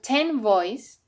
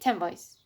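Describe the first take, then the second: First: The final n of ten is kept clear. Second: The final n of ten blends toward m. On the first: "instead of ten boys" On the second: "we say ten boys"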